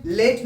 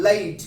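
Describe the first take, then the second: First: लेट with one pure "ey" vowel; Hindi-style late. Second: लाइट as "leh-eet", the vowel gliding; English-style late. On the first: Teacher showing what not to say, लेट with a pure vowel. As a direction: say लेट short, with no glide in the vowel. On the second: Teacher correcting how the class says late, लाइट with a drawn glide. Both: Shown as a demonstration. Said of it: "लेट ना बोल के लाइट".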